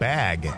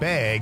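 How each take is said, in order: First: It is said with a standard accent. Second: It is said with a Wisconsin accent.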